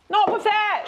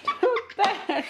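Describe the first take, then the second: First: High, loud call to stop; sharp shout. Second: Slow, high, laughing through words. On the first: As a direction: cry out to stop her. Child smushing food, sharp stop. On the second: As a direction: laugh while scolding. Same words, now laughing. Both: Real, not acted.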